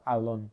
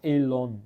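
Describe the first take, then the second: First: The first vowel sounds like 'ah'. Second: The first vowel sounds like 'eh'. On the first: This is how other fans say it. "não falam Alon" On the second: This is how German fans say it. "eles falam Elon no final"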